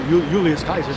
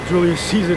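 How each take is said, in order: First: The second name begins with a K sound. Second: The second name begins with an S sound. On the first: The speaker calls it right. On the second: The speaker calls it wrong.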